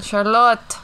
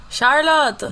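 First: Charlotte echoed a bit higher and louder; echoed posh name. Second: Charlotte said high and loud, mocking; mocking posh name. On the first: Pretend. Echoing the name. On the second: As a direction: fling out Charlotte like a posh call.

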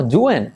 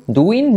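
First: "doing" as "DU-en", I turned into E; doing like duende. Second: Slow "doing" as "DU-in", with a Spanish I; careful, drawn-out "du-in" for "doing"; doing with clear I. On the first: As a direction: say "doing" like duende without the final syllable. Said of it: "decir doing como duende". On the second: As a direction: stretch "doing" with an EE in the ending. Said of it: "No, doing". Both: Shown as a demonstration.

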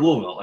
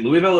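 First: "Louisville" said as LOO-is-ville; "Louisville" pronounced like Lewis-ville; Louisville with sounded S. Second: "Louisville" said as LOO-ee-ville; "Louisville" pronounced like Louie-ville; Louisville with silent S. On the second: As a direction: say "Louisville" with no S sound. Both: Shown as a demonstration. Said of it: "which one is it?".

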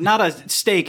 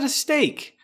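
First: "steak" drawn out slow and loud, as if in quotes; "not a steak" slowed and leaned on to air-quote "steak". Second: "steak" said straight, high and emphatic; plain, emphatic "steak". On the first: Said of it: "I'm using finger quotes here around steak". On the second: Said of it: "finger quotes here around steak". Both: Shown as a demonstration.

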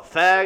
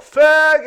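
First: A milder, louder retold yell; heckler's slur retold, half-hearted shout. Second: Sudden high, loud yell; heckler's yell. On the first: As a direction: toss the slur out again, less hard. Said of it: "And then he's all". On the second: Retold or imitated. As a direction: bark the insult from the crowd. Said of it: "this guy's all".

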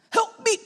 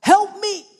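First: Cry for help. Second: Loud cry for help. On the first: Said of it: "could you imagine Peter in the water". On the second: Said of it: "And coming back up". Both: Retold or imitated.

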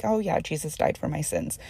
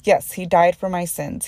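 First: Breezy, offhand and a little softer; said lightly. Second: Firm, weighty, each word meant; said earnestly. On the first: Retold or imitated. A believer mimicking how she says it too casually. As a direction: toss it off as if it barely matters. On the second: Real, not acted. A believer correcting her own casual words, earnestly. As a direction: answer the flippant version with conviction. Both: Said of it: "I say it so lightly".

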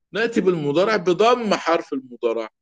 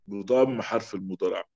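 First: بضم said higher with emphasis; stressed rule. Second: بضم حرف المضارع repeated lower and softer. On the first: Teacher stressing the rule for students, high on بضم. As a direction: raise the voice on بضم. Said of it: "rule stated". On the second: Teacher softly repeating the rule to the class. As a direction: drop it low as a soft echo. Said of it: "repeated rule". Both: Shown as a demonstration.

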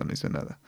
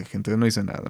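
First: No hice nada, whispered with no voice; no hice nada as a whisper to the audience; whispered aside. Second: Said in the usual way. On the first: Real, not acted. Repeated as a hushed aside.

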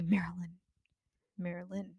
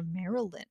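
First: Quiet, cross whispered "Marilyn"; "Marilyn" hissed under the breath when annoyed; mad whisper. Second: Marilyn in three syllables, MARE-uh-lyn. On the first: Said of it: "when I'm mad at you". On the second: Friend showing how her name can go, Marilyn in three syllables. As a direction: sound the middle vowel in Marilyn, MARE-uh-lyn. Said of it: "or three". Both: Shown as a demonstration.

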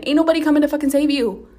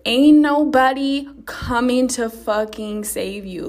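First: Faster, higher and louder second time; louder repeat. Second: Slow, weighty, every word pressed; slow emphatic warning. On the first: Podcaster repeating her warning to listeners, louder and faster. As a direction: hammer it home, fast and loud. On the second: Podcaster warning listeners nobody will rescue them, slow and emphatic. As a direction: lay it down slowly and firmly. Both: Shown as a demonstration. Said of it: "Let me say that again".

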